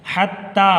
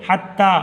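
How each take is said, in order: Both takes have the same delivery.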